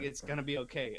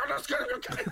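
First: Said in the usual way. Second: Very high, squeaky mock repeat; mocking echo. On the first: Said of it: "And she's like". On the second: Man mocking his girlfriend's reassurance, high mocking echo. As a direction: parrot her reassurance back in a high voice. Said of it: "And I'm like".

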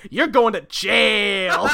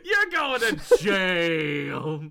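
First: Slow, drawn-out accusation; accusing Bob. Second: Very slow, loud mock accusation; mock verdict. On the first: Acted. Bob pointing at the hero, slow accusation. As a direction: stretch it out as a verdict. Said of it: "Bob points at Batman and goes". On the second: Repeating the verdict to crack up the friend, mock verdict. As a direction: draw it out, exaggerated, on a laugh. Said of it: "Something about the way you said that".

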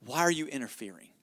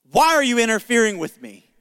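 First: Low, softly read question; subdued quote. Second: Louder, emphatic retold challenge; challenging quote. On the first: Retold or imitated. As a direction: quote it quietly and low, falling away. Quotes the enemy's word, first reading. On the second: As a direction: throw the question out forcefully, hitting "Why". Repeats the quote as indignant challenge.

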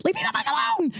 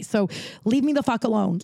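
First: Exasperated shriek. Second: Said in the usual way. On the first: Retold or imitated. Exasperated retelling, repeated line.

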